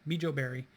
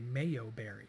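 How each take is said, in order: First: The J sound is pronounced in the first word. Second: The J sound is silent in the first word. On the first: "I'm going to say Mijo" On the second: "maybe it's a silent J"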